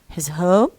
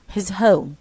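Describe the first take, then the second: First: The pitch rises at the end. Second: The pitch falls at the end. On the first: It is a question. "if you want to put it in uh, question form" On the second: It is a statement. "this falling intonation"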